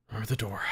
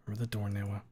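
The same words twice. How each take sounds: First: Said in the usual way. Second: Hushed urgent whisper. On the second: Acted. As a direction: whisper a warning. Whispered Leon reminder.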